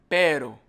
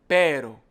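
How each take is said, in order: No difference in how they are said.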